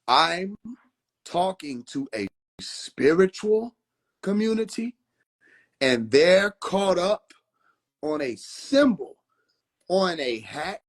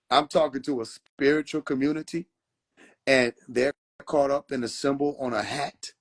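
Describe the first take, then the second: First: It is said slowly. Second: It is said at normal speed.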